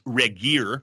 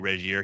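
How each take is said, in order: First: The name is pronounced in an English style. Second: The name is pronounced in a French style. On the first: "He keeps correcting me. It's Regier" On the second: "I say Regier"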